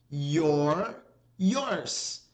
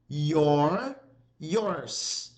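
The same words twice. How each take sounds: The two takes are said the same way.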